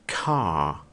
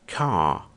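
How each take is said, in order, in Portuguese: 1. O R depois da vogal é silencioso. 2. O R depois da vogal é silencioso.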